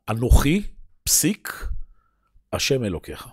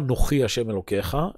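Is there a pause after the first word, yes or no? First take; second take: yes; no. First: It is said with a pause after the first word. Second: It is said without a pause after the first word.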